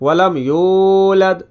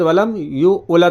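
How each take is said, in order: First: The word 'yulad' is said smoothly as one unit. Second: The word 'yulad' is broken into two parts. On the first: The speaker calls it right. "इस तरीके से पढ़ना है" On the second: The speaker calls it wrong. "नहीं पढ़ना है आपको"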